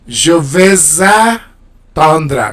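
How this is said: The words are split apart with a break.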